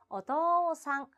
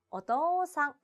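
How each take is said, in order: No difference in how they are said.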